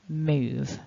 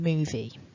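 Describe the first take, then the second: First: The word ends on the v with no vowel. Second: An extra vowel sound follows the final v. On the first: The speaker calls it right. "It's just move" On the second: The speaker calls it wrong. "we're not pronouncing that E at the end. So I'm not saying movie"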